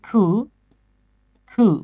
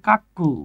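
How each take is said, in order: First: The first vowel sounds like 'oo'. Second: The first vowel sounds like 'a'. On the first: The speaker calls it right. "এটা উচ্চারণ হচ্ছে খু খু" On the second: The speaker calls it wrong. "অনেকে এটার উচ্চারণ করে কাক্কু"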